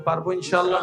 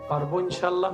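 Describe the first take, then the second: First: It is said more loudly. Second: It is said at normal volume.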